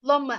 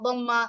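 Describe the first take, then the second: First: The word begins with an l-like sound. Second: The word begins with a d-like sound. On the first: The speaker calls it wrong. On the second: The speaker calls it right.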